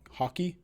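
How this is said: It is said in a Canadian-sounding accent.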